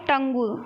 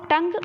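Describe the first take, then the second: First: The word ends with an added 'oo' vowel. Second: The word ends on the consonant sound. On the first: This is how the word is spelled. "और लिखते क्या हो" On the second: This is how the word is read aloud. "लेकिन पढ़ते क्या हो"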